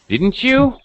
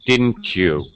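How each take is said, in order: First: The pitch ends high at the end. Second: The pitch falls low at the end. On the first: The speaker is really asking a question. "ending with a high pitch" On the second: The speaker already knows and wants confirmation. "I use falling intonation"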